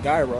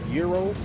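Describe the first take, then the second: First: The word begins with a J sound. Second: The word begins with a Y sound. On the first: The speaker calls it wrong. "I don't even think it's pronounced Gyro" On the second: The speaker calls it right. "I think it's Euro"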